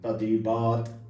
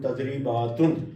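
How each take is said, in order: First: The word ends without a final vowel ending. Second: The word ends with an added '-un' sound. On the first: The speaker calls it wrong. "तदरीबात क़राअतहा बिल वक्फ़" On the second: The speaker calls it right. "इक़रा बिज़्ज़ब्त तक़ूलु तदरीबातुन"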